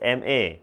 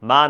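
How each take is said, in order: First: It is read as two separate letters. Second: It is read as the single syllable ma. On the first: The speaker calls it right. "It's এম এ" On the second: The speaker calls it wrong. "মা না"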